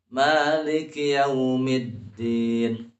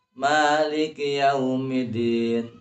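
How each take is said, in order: First: Slow Maliki yaumiddin, doubled d; yaumiddin with syiddah held. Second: Maliki yaumiddin with a single light d; yaumiddin without syiddah. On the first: Teacher showing careful reading, yaumiddin chanted with held d. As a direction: hold the d in yaumiddin. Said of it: "sidahnya itu harus diperhatikan". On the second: Teacher showing unpleasant-sounding wrong reading, yaumiddin with d undoubled. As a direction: slide through yaumiddin without holding the d. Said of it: "jangan dibaca". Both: Shown as a demonstration.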